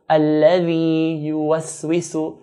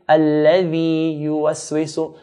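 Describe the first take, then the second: Both takes have the same delivery.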